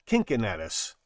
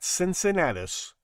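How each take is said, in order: First: The name is said with Latin sounds. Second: The name is said with English sounds.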